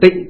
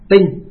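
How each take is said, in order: First: The syllable is said with a low, heavy tone. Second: The syllable is said with a level tone. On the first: This is the reading used today. "Bây giờ thì là tịnh" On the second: This is the original, older reading. "ngày xưa nguyên âm của nó gọi là tinh xá"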